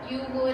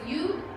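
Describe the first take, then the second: First: Both words are said in full. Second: The words are squeezed into one short syllable. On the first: "The right way to pronounce the contractions" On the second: "you would is you"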